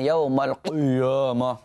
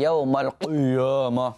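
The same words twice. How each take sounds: First: The q sound and its vowel are overly thick. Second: The same.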